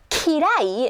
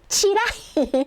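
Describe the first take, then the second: First: The word begins with ki. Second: The word begins with chi. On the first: This is standard Japanese. "in like normal Japanese" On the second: This is a rural regional accent. "but she's like"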